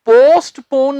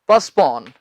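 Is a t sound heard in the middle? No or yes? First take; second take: yes; no. First: A t sound is pronounced after the s. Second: No t sound is pronounced after the s. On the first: The speaker calls it wrong. "पोस्टपोन नहीं" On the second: The speaker calls it right. "इसका सही उच्चारण है पस्पॉन। टी इसमें हम नहीं बोलते।"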